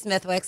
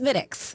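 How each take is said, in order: First: The th and w sounds are pronounced. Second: The th and w sounds are silent. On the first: The speaker calls it wrong. "when people say Smithwick's" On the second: The speaker calls it right. "it's Smittix"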